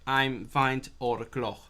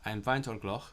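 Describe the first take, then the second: First: Each word is said separately with small pauses. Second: All words run together without any pauses. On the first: "some students might try to remember it bit by bit" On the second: "like one word"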